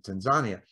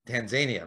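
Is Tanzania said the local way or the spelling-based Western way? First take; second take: local; Western. First: It is said the way locals say it. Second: It is said the way the spelling suggests. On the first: This is how people from the country say the name. "they pronounce it Tanzania" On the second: This is how outsiders say the name. "We Westerners, we Tanzania"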